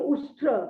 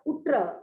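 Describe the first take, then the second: First: The middle consonants are pronounced as 'sht'. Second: The middle consonants are pronounced as 'tt'. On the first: "she was saying Ushtra" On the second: "Kalidasa was pronouncing it as Uttra"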